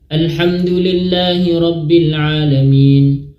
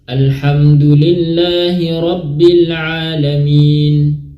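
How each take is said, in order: First: The phrase is recited quickly. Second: The phrase is recited at a moderate pace. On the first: "Hadr itu cepat" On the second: "diantara cepat dan diantara lambat"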